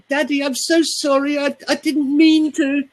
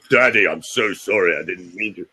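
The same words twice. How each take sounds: First: Put-on whiny small child. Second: Said in the usual way. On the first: Shown as a demonstration. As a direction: beg Daddy like a frightened small child. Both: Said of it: "We don't go".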